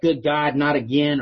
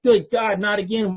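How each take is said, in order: First: Said in the usual way. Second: Higher, louder mock exasperation on Good God; hammed-up fed-up sigh of not again; exasperated groan. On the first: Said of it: "you're like". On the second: Hearing the same old share again, exasperated. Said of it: "And you're just like".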